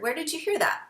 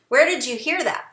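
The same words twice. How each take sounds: First: The voice sounds calm and gently curious. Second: The voice sounds alarmed and accusing. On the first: The child is simply being asked where the word came from. The speaker calls it right. "just be very aware of your tone. You want to say" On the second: The child is being blamed for asking. The speaker calls it wrong. "Now they feel like they're in trouble for asking a simple question"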